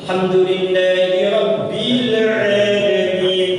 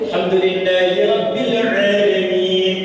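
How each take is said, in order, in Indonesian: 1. Vokalnya dipanjangkan terlalu panjang. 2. Vokalnya dibaca pendek dan langsung. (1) "Orang Saudi suka kepanjang. ... Itu kepanjangan" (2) "harusnya langsung aja"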